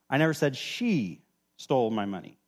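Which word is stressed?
she. The stress is on "she".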